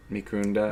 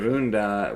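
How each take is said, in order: First: "Microondas" with a final s, as a tentative question; trying Spanish Microondas. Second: "Microonda" with no final s, settled and falling; corrected Microonda. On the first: Guessing the Spanish word for microwave, "Microondas" with s. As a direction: say "Microondas" ending on a clear s sound. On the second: After a friend's correction, "Microonda" said without s. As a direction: drop the s and land "Microonda" firmly. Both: Shown as a demonstration. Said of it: "Microonda, I think, actually".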